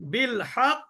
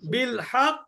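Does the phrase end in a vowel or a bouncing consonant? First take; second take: bouncing consonant; bouncing consonant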